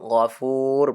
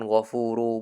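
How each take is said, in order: First: The word ends on a bare r consonant. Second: The word ends on a short u vowel. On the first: The speaker calls it right. "ghafur bacanya" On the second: The speaker calls it wrong.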